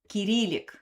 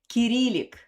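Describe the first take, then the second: First: It is said the Russian way. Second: It is said the Russian way.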